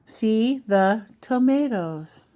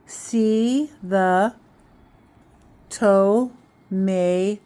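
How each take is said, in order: First: Said in the usual way. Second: Sounded out slowly. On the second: Shown as a demonstration. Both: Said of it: "And then blend the sounds".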